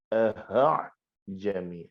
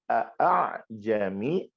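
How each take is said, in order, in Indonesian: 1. Suku kata pertama diakhiri dengan bunyi h yang berdesah. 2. Suku kata pertama diakhiri dengan hamzah. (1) "Ini tentu contoh yang salah" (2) "Kalau a' bermakna ada hamzahnya"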